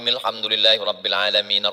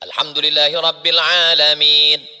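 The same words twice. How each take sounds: First: It is recited quickly, running on in one breath. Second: It is recited slowly, with lengthened vowels and a stop. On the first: The whole chapter is read in a single breath. "Fatihah saya satu nafas pun boleh" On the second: It follows the Prophet's practice of reading verse by verse. "Nabi membaca dengan mad dan waqaf"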